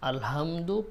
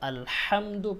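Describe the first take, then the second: First: The h is a light, plain breathy sound. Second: The h is a harsh, tight throat sound. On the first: The speaker calls it wrong. "আমরা হার উচ্চারণটাকে হা পড়ি, আলহামদু পড়ি। আলহামদু পড়া যাবে না" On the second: The speaker calls it right. "আলহামদু পড়তে হবে।"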